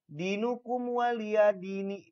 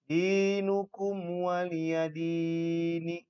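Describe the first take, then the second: First: The long vowels are cut short. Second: The long vowels are clearly held out. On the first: The speaker calls it wrong. "Tidak boleh dibaca" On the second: The speaker calls it right. "Kemudian ada mad kasroh"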